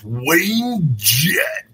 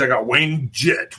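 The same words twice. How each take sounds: First: Big drawn-out rock-star announcer voice; hammed-up arena intro of a guest. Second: Said in the usual way. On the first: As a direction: announce him like a stadium headliner. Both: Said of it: "I don't know why I do that".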